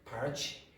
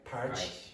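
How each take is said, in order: First: The final t sounds like ch, Brazilian-style. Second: The final t sounds like ch, Brazilian-style.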